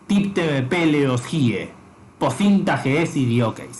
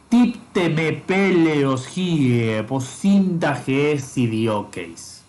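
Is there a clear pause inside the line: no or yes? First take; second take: yes; no. First: The line is broken by a clear pause midway. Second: The line flows unbroken with a slight pitch drop. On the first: The speaker calls it wrong. "Eso está mal" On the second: The speaker calls it right. "una pequeña bajada de tono, por ejemplo, para señalar que ahí hay una coma"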